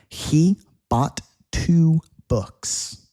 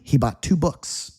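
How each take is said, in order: First: The sentence is spoken at a normal pace. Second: The sentence is spoken quickly.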